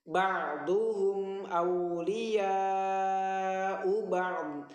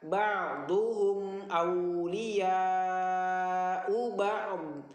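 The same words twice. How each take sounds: No difference in how they are said.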